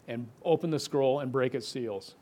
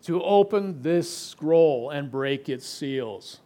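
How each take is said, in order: First: Said in the usual way. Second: Slow and weighty, leaning on "open"; slow solemn reading. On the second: Shown as a demonstration. Preacher reading the invitation from scripture aloud, slow and solemn. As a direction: read "to open this scroll and break its seals" slowly, stressing "open".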